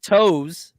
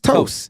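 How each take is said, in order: First: The syllable ends on a plain Z sound. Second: The syllable ends with an ST sound. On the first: The speaker calls it wrong. "not toes" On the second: The speaker calls it right. "That's pronounced toast"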